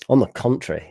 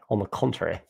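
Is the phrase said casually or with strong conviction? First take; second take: strong conviction; casually. First: It is said forcefully, with strong conviction. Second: It is said casually, without much commitment. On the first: "say it with so like so much conviction" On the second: "talking like I am doing"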